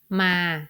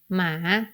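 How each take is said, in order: First: The word is said on a level middle pitch. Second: The word is said with a rising pitch. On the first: "pronounced as ma in the middle tone" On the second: "pronounced in a rising tone"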